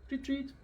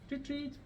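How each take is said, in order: No difference in how they are said.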